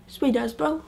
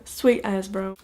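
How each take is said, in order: First: Higher, sweet rising lazily into bro; mock Kiwi slang. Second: Said in the usual way. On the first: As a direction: toss it off like a cheeky local. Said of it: "It goes something like this". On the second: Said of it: "own voice before the mock Māori".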